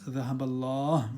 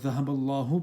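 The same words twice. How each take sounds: First: The last word ends without a final vowel. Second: The last word ends with a short u vowel. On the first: "replace it with a sukoon" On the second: "take out the dhamma"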